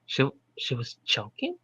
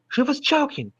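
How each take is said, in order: First: Soft, puzzled rising read; unsure question. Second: High, emphatic realisation; shocked exclamation. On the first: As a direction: ask it as if unsure. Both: Shown as a demonstration.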